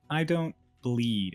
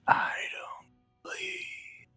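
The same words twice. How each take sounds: First: It is said in a plain, clear voice. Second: It is said in a whispery, scratchy voice.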